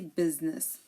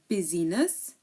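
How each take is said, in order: First: No vowel sound is heard after the S. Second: A vowel sound is heard after the S. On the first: The speaker calls it right. "We say business. Here the I is silent" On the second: The speaker calls it wrong. "We do not say busyness"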